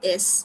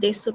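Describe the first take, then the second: First: The final u vowel is dropped. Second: The final u vowel is clearly pronounced. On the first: The speaker calls it right. "এটা কি? দেস।" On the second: The speaker calls it wrong. "কিন্তু এটা কিন্তু দেসু না"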